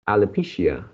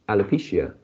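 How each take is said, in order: The two takes are said the same way.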